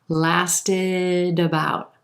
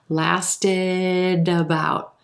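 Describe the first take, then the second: Both takes have the same delivery.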